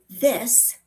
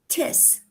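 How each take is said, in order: First: The word begins with a soft TH sound. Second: The word begins with a T sound. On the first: "instead of this" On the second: "the T H sound is often replaced with D's or T's"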